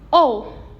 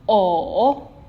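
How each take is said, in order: First: The pitch falls sharply and briefly. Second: The pitch dips low and then rises. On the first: "for the last one is o" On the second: "for the V tone"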